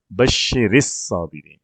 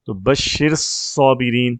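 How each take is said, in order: First: بشر الصابرین slowly, with a zer on the ر sliding into الصابرین; correct joining demo. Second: Slow demo of بشر صابرین with the ر left silent and no vowel bridge; wrong joining demo. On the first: Teacher models the correct joining for the student, slow and careful. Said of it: "پہلے ساکن کو زیر دیتے ہیں". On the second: Teacher shows student the wrong joining, slowly and deliberately. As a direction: sound out بشر صابرین the clumsy wrong way, slowly, two silent letters clashing. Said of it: "یوں بولنا مشکل ہے". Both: Shown as a demonstration.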